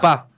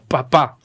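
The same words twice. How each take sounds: First: The second p is soft, not explosive. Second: Both p sounds are strong and explosive. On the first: "la segunda P es más suavecita" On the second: "a pronunciar todas como oclusivas"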